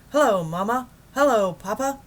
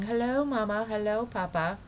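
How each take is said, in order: First: Loud, high, cheery radio greeting; Admiral Drake on the radio. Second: Lightly voiced dismissive mimic of the greeting; wife mocking radio greetings; mocking the explorers. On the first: Acted. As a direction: hail the folks back home. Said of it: "a faint voice floated out". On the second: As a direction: wave the silly greeting away. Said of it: "a lot of men ... saying".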